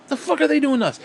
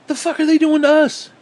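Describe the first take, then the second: First: Higher, pressing real question; own indignant question. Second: High, loud shrieking outrage; mock outrage. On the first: Real, not acted. Ranting at hawks, asks it again in earnest. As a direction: ask it straight and pointed. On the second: Ranting at hawks, shrieks a mock-outraged high question. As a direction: screech it like a panicked hawk.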